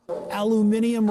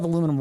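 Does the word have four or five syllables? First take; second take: five; four. First: The word has five syllables, ending in -ium. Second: The word has four syllables, ending in -um. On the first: The speaker calls it wrong. "Sorry, I don't say titanium, so I don't say aluminium" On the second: The speaker calls it right. "I don't say titanium, so I say aluminum"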